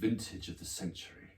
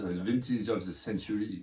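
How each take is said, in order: First: It is said in a plain English accent. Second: It is said in a French accent.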